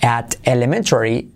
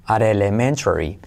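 First: Said in the usual way. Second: "at elementary" linked as "arelementary"; T as soft R. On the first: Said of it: "fíjate la T se convierte". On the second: Shown as a demonstration. Teacher demonstrating the link, "at elementary" with soft R. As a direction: tap the T of "at" into "elementary". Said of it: "la T se convierte en E suave".

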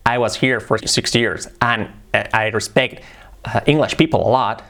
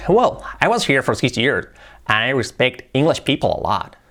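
First: "I was here for six years" said slowly, each word level with no melody; flat intonation. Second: "Well, I was here for six years" with a flowing rise and fall; natural English intonation. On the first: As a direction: read "I respect English people a lot" flat and word by word, like a beginner. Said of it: "su problema sobre todo es que habla plano". (entonación plana, cada palabra igual, sin melodía)

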